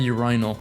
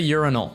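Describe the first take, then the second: First: The word is said with a British pronunciation. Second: The word is said with an American pronunciation. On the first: "This is the British English way of saying it" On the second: "I could say urinal"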